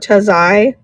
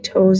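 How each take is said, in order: First: The name ends in an 'eye' sound. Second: The name ends in an 'oh' sound. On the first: "I think it's Tazai" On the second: "Am I saying it right?"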